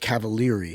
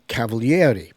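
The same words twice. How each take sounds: First: Some vowels are dropped, as in American speech. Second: Every vowel in the name is fully pronounced. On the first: "in America, that's unheard of. So it's Cavalieri here" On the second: "because in Italian you, you pronounce all the vowels"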